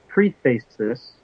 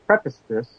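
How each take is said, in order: First: "preface" said as pree-face, long ee and clear face; pronunciation try. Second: "preface" said as preh-fuss, short e and weak second syllable; corrected pronunciation. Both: Shown as a demonstration. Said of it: "whichever is the correct way to pronounce that".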